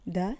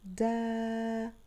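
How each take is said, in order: First: "د" as a quick, short da; one brief syllable "د", no lengthening; short vowel. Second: "دا" held as long, steady daa; stretched-out syllable "دا"; long vowel. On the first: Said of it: "الأصوات القصيرة لحرف الدال". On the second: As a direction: sustain the vowel of "دا" on a level note. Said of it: "الصوت الطويل لحرف الدال". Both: Shown as a demonstration.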